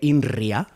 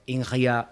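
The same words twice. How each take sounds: First: The R is said in the speaker's usual way. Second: The R imitates the guest's way of saying it. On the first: "I would normally say INRIA" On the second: "I doubt very much you say that R the very same way I do"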